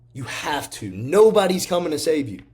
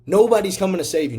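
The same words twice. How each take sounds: First: Fired up. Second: "Nobody's coming to save you" shouted higher, with "Nobody's" punched; rising to a fired-up shout on the repeat; loud, higher motivational cry of "Nobody's". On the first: Repeated motivational line. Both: Real, not acted.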